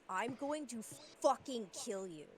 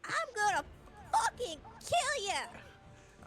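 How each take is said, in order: First: It is spoken in the speaker's ordinary accent. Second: It is spoken in a Southern American accent.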